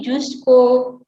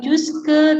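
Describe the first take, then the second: First: The word ends with a clear o vowel. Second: The word ends with a weak e vowel. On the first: The speaker calls it right. "tapi jusco, karena au dibacanya o" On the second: The speaker calls it wrong. "bukan jusque"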